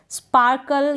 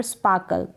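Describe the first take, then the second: First: स्पार्कल with the R sounded before the K; R pronounced. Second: स्पार्कल with the R dropped, like "spaa-kal"; silent R. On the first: Teacher showing learners the full word, R pronounced. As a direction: say स्पार्कल with an audible R. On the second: Teacher showing learners an accepted variant, R silent. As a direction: say स्पार्कल leaving the R unsounded. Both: Shown as a demonstration. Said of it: "आर को आप silent रखें".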